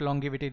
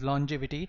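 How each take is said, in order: First: The middle consonant is a hard g sound. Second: The middle consonant is a soft j sound. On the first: The speaker calls it wrong. "This is not" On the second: The speaker calls it right. "This is"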